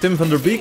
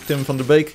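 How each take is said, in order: First: The name is pronounced with English sounds. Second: The name is pronounced with Dutch sounds. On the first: "if you pronounce his name in uh, English" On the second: "If you pronounce it in Dutch"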